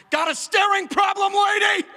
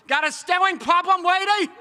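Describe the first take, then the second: First: High, loud snap at a stranger; snapping shout. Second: "Got a staring problem, lady?" high and loud with lady said like "weidy"; lisping child retort. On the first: Small child snapping at a staring woman, high loud shout. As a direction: bark it at her like an angry toddler. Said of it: "snapped, and went". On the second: Toddler who can't say R's snapping at the woman, high and loud. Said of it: "it sounded like". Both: Retold or imitated.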